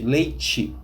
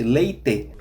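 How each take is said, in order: First: The t sounds like ch, ending in i. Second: The t is plain, southern Brazilian style.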